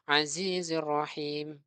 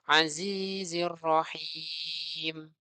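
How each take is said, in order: First: The final vowel is held only briefly. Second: The final vowel is held noticeably longer. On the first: The speaker calls it wrong. "jangan sampai bacanya sama. Misalkan azizir rahim. Nah, itu sama" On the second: The speaker calls it right. "bedanya itu kita baca seperti azizir rahim"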